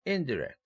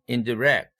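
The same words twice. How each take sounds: First: The main stress falls on the prefix in-. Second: The main stress falls on the stem.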